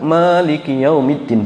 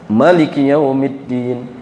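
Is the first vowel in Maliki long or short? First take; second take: long; short. First: The first vowel of Maliki is long. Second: The first vowel of Maliki is short. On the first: "sebagian lain mengatakan" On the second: "Jadi maknanya dipendekkan"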